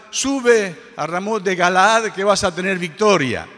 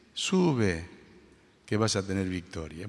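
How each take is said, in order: First: Loud, high, rousing cry of victory; prophetic proclamation. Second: Low, soft, terse deadpan; very ironic. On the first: Prophets urging the king to battle, loud triumphant proclamation. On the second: Micaías mock-prophesying victory to the king, ironic and terse. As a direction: say it dryly and quietly, not believing a word. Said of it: "con un tono muy irónico". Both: Retold or imitated.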